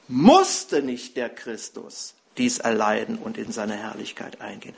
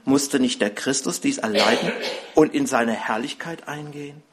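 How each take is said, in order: First: The sentence is read with strong, marked emphasis. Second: The sentence is read plainly, with ordinary emphasis.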